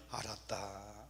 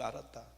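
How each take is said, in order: First: Low, softer mild voice of God; God answers. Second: Low, softer gentle reply; God answers. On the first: God answers a praying believer, low and mild. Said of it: "하면 하나님이". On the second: God answers the believer again, low and gentle. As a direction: answer gently as God who already knows. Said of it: "하나님이". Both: Retold or imitated.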